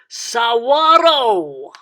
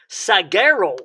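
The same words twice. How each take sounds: First: Spanish-style, with a W sound and rolled R. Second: English-style, with a hard G and plain R. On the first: The speaker calls it right. "don't forget to roll the R at the end. So you would say saguaro" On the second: The speaker calls it wrong. "An English speaker would say something like saguaro"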